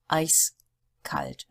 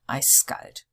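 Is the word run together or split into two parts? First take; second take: split; run together. First: The two parts are said separately with a break. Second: The two parts are run together without a break. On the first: The speaker calls it right. "here we pronounce them really separately" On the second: The speaker calls it wrong. "not eiskalt"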